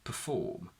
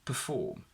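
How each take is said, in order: First: The first syllable has a weak schwa vowel. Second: The same.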